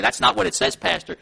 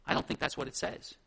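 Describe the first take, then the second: First: Louder, firm challenge to the pastor; outspoken objection. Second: Lower, softer gentle objection; loving, kind correction. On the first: Church member challenging the pastor on Scripture, outspoken objection. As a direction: speak up and object plainly. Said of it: "you're to speak up". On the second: Church member correcting the pastor in love, gentle objection. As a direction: disagree kindly and quietly. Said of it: "speak up in love and kindness to say". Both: Acted.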